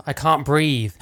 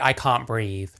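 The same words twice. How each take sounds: First: Gasping out the words; mock choking. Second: Said in the usual way. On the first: Shown as a demonstration. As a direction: wheeze it out like you're being choked. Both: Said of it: "It's not quite".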